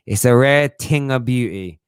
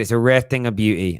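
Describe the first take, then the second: First: Put-on slow, savouring quote without the accent; barely voiced old trainer line; Mickey from Rocky. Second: Said in the usual way. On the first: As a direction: lean on rare, slowly. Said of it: "Mickey from Rocky". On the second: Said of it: "I'm not gonna put on his ... accent".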